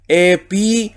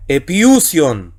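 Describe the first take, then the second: First: "epiusion" read quickly; quick Greek word. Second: "epiusion" drawn out slowly, falling at the end; slow Greek demo word. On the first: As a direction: say "epiusion" lightly, in one go. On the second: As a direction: stretch out "epiusion" syllable by syllable. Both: Shown as a demonstration. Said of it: "Así que sería".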